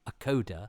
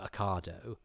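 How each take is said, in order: First: The ending does not sound like avocado. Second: The ending sounds like avocado. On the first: This is how the speaker's partner used to say it. "is how my other half pronounced Ocado" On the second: This is how the speaker says it, learned from his ex-wife. "it sounds a bit like avocado"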